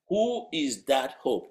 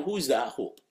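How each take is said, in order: First: "Who is that hope" drawn out word by word; "Who is that hope" stretched for emphasis; slow emphatic question. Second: Said in the usual way. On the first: Real, not acted. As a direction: ask "Who is that hope" slowly, weighting each word. Same question repeated for emphasis.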